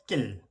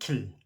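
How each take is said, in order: First: The word is said with force, a tense opening. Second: The word is said plainly, without extra force.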